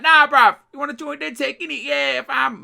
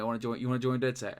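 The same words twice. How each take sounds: First: Much higher and louder hammed-up London street accent; over-the-top London accent. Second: Said in the usual way. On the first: Mimicking a game recruit to friends, over-the-top London accent. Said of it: "Rick Cockney". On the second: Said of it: "And I was like".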